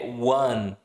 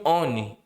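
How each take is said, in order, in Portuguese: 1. Começa com som de 'w'. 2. Começa com vogal, lida como em português. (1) "A pronúncia de um é one" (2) "As pessoas pronunciam on"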